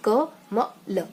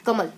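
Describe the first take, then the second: First: क म ल sounded out as separate letters. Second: कमल read as one smooth word; whole word. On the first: Teacher shows the wrong way to read a word, letter by letter. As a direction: spell out क म ल one letter at a time. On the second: Teacher shows the right way to read a word, as one word. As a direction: say कमल in one go, not split. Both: Shown as a demonstration. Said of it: "ऐसे नहीं पढ़ना है".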